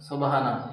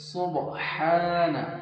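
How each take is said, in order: First: The ha is a light ordinary h sound. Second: The ha is breathy and its vowel is lengthened. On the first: The speaker calls it wrong. "অনেকে এখানে ছোট হা উচ্চারণ করে" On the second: The speaker calls it right. "এখানে বড় হা আছে, মুখ দিয়ে হালকা বাতাস বার হবে। ... একদিক টান হবে।"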